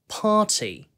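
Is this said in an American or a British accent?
British. British accent, the t is pronounced clearly. "영국식으로는 party, ... 명확한 T 발음도 살려가지고"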